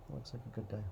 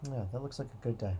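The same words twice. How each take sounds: First: The same line repeated much softer, half to himself; quiet echo. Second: Said in the usual way. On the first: Pretend. Planner repeating his verdict to himself, much softer. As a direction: murmur it back to yourself, satisfied.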